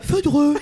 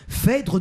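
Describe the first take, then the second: First: The title is said as Feudreux. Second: The title is said as Phèdre.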